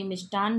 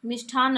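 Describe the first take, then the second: First: मिष्टान said with unaspirated ट, plain "ष्ट"; मिष्टान with crisp ट, no breath after it; correct form said. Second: मिष्ठान said with aspirated ठ, "ष्ठ" as sh-thh; मिष्ठान with breathy ठ after ष; wrong spelling said. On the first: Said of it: "मिष्टान्न होगा". (मिष्टान में ट अल्पप्राण, शुद्ध उच्चारण) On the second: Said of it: "मिष्ठान्न नहीं". (मिष्ठान में ठ महाप्राण, गलत उच्चारण) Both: Shown as a demonstration.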